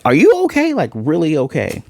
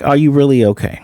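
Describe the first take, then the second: First: High, anxious pleading check-in; worried asking. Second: A lightly voiced concerned question; near-plain retold concern; mild worried asking. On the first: Retold or imitated. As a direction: squeak it out like a frightened friend. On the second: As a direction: ask gently, only a touch worried. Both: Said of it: "this one's not much different than the other one".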